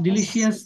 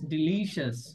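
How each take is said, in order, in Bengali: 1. শেষটা 'yas' এর মতো উচ্চারিত হয়। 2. শেষটা 'shas' এর মতো উচ্চারিত হয়। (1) "we have tendency to pronounce yes" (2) "but it would be shas"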